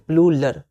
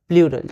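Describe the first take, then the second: First: The middle consonant is an L sound. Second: The middle consonant is an R sound. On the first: The speaker calls it wrong. "कई बार हम लोग प्लूरल प्लूलर बोल जाते हैं" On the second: The speaker calls it right. "लेकिन ये प्लूरल होता है, र पहले है"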